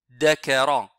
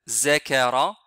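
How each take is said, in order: First: The word begins with a d sound. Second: The word begins with a z sound. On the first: "certains le lisent dakara. C'est faux" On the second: "ils disent za. ... C'est aussi une erreur"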